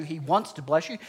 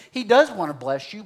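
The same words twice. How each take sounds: First: Said in the usual way. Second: "does" punched higher and louder; stress on DOES. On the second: Real, not acted. Preacher conceding a point to the congregation, stress on "does". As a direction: lean hard on "does".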